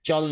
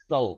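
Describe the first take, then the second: First: The last syllable starts with a ch sound. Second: The last syllable starts with an s sound. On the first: The speaker calls it wrong. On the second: The speaker calls it right.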